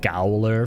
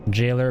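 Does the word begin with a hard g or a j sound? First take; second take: hard g; j sound. First: It begins with a hard g sound. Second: It begins with a j sound. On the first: "I like to spice it up and say gowler for fun"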